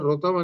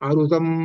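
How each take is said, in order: First: The word begins with a plain 'ru' sound. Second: The word begins with an 'aru' sound. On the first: The speaker calls it wrong. "అందరూ ఎలా పలుకుతారంటే ఋతం అనే పలుకుతారు, రు అని" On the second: The speaker calls it right. "అరుతం అది అసలు"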